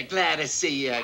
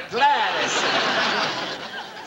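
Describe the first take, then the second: First: Said in the usual way. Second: Very slow, stretched "Glad to see you" with a laugh; drawn-out greeting. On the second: Acted.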